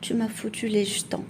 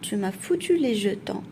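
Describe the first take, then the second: First: The word jetons is said slightly shortened. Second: The word jetons is said in full. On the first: "en raccourcissant légèrement le mot" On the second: "au lieu de dire"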